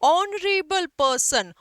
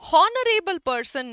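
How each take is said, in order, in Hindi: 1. यह स्वर ध्वनि से शुरू होता है। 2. यह h ध्वनि से शुरू होता है। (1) "एच साइलेंट है" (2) "नहीं होता है उच्चारण में"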